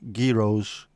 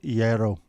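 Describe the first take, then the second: First: The word begins with a pronounced G sound. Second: The word begins without any G sound. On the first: The speaker calls it wrong. "Common mispronunciations include" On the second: The speaker calls it right. "The correct pronunciation is gyro. The G is silent"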